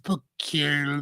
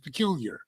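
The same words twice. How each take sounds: First: It is sounded out the way it is spelled. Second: It is said in its natural spoken form. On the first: This is how the word looks when read. "if you read peculiar, it's peculiar" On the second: This is how the word is actually said. "then when you say it, it's peculiar"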